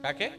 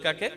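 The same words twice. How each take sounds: First: It is said at normal, softer volume. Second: It is said louder, with more force.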